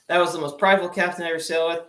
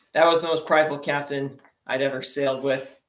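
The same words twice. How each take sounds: First: "that was the most prideful captain" rattled off fast; rushed repeat. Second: Said in the usual way. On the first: Shown as a demonstration. Repeating the captain line to the audience, hurried.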